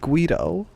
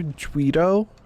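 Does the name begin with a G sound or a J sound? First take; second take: G sound; J sound. First: The name begins with a G sound. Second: The name begins with a J sound. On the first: "What's wrong with Guido?" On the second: "Should I make it a J?"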